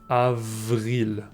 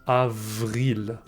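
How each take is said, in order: No difference in how they are said.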